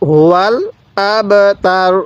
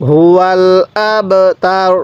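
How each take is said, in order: Both takes have the same delivery.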